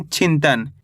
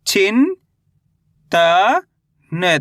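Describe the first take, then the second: First: चिंतन as one whole word, falling in pitch; चिंतन read in one piece, settling downward; joined-up word. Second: चिन, त, न as separate syllables with long pauses; चिन stretched and rising, then त, then न. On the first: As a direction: blend चिंतन together without breaks. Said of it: "कैसे पढ़ेंगे इसको अपन". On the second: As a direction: sound out चिन, त, न for a learner. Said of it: "एक अक्षर का उच्चारण करके". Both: Shown as a demonstration.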